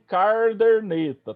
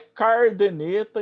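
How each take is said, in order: First: An r sound comes in both first syllables. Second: The r sound comes only in the first syllable. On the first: "e nem carderneta" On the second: "não é cardeneta"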